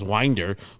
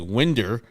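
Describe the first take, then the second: First: The first vowel is long, like 'wine'. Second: The first vowel is short, like 'win'. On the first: The speaker calls it wrong. "I thought it was Winder" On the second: The speaker calls it right. "but you said it correctly"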